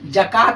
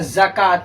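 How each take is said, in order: First: The word begins with a j sound. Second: The word begins with a z sound. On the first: The speaker calls it wrong. "जकात ना होता है" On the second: The speaker calls it right. "क्या होता है, ज़कात"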